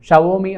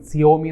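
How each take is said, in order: First: The name begins with a sh sound. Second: The name begins with an s sound. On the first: This is how it should be pronounced. The speaker calls it right. "ഷവോമി എന്നാണ് അത് മലയാളത്തിൽ pronounce ചെയ്യേണ്ടത്" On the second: Some people read it this way. The speaker calls it wrong. "സിയോമി എന്നൊക്കെ ചിലപ്പോൾ ചിലർ വായിക്കാറുണ്ട്"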